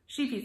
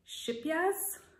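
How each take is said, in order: First: The name is said like 'sheepies'. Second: The name is said like 'shipyaz'. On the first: This is the household nickname, said wrong on purpose. "in our house, we call it sheepies" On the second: This is the speaker's guess at the real pronunciation. "I think it's like Shipyaz"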